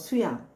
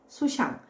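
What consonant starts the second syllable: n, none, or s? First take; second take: none; s. First: The second syllable starts with no consonant. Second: The second syllable starts with an s sound. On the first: "엉뚱하게도 뭐 수양" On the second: "이렇게 발음할 수도 있다는 것이죠"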